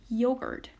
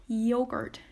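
The two takes are said the same way.

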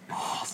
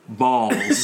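First: It is said quietly in a whisper. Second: It is said in a normal voice.

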